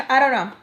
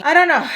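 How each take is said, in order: First: Louder frustrated repeat, less high; milder exasperation. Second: Sudden high, loud burst; exasperated outburst. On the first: Storyteller wondering what's wrong with her, easing loud exasperation. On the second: Storyteller wondering what's wrong with her, loud exasperated outburst. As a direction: throw it out in loud frustration. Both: Real, not acted.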